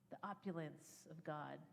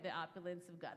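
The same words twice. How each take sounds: First: It is said at normal volume. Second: It is said loudly.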